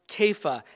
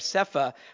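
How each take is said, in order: First: The word begins with a k sound. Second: The word begins with an s sound. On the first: The speaker calls it right. "but it's pronounced Kepha" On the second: The speaker calls it wrong. "some people want to say Sepha"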